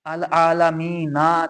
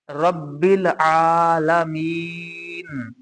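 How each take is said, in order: First: अल आलमीना recited with the final vowel, आलमीना ending open on ना; full vowel ending. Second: रब्बिल आलमीन recited slowly, final नून silent of vowel; stopping form. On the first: Teacher shows students the written vowel, अल आलमीना with final ना sounded. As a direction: slowly recite अल आलमीना keeping the last vowel ना. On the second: Teacher shows the pause rule, slow recited रब्बिल आलमीन ending on still नून. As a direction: draw out रब्बिल आलमीन and stop dead on the नून. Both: Shown as a demonstration. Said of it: "नून को साकिन किया है".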